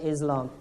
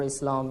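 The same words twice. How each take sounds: First: The middle consonant is a Z sound. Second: The middle consonant is an S sound. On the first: The speaker calls it wrong. "rather than Islam" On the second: The speaker calls it right. "we prefer the pronunciation of S for Islam"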